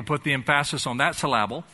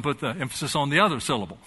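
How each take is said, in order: First: Emphasis as em-PHA-sis, syllable as syl-LA-ble; misplaced stress. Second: Said in the usual way. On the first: Shown as a demonstration. Preacher jokes about confused priorities, misplaced stress. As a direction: hit the second syllable of emphasis and syllable.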